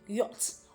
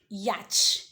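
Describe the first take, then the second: First: No 'ch' sound is heard in the middle. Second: A 'ch' sound is heard in the middle. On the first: The speaker calls it right. "The C H there is not pronounced" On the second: The speaker calls it wrong. "some people pronounce it as yacht"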